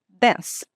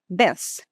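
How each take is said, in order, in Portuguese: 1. Sotaque americano com uma vogal curta e rápida. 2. Sotaque americano com uma vogal curta e rápida.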